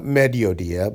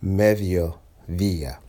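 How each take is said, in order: First: "mediodía" with two hard stopped D's. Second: "mediodía" slowly, both D's as th sounds; soft D. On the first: Teacher repeating the mistake to avoid, hard D's. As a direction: say both D's of "mediodía" firmly, as in English dog. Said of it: "not mediodía". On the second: Teacher giving the correct version after the mistake, slow soft D's. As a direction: stretch "mediodía" out, tongue between the teeth on each D. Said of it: "sticking my tongue out between my teeth". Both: Shown as a demonstration.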